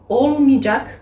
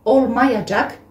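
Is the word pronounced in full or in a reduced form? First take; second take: reduced; full. First: The word is shortened, with sounds dropped. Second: Every syllable of the word is pronounced fully. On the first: This is how people say it in everyday speech. "vous entendez les personnes le prononcer olmayacak" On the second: This is the standard form. "on utilise toujours la possession suivie de olmayacak"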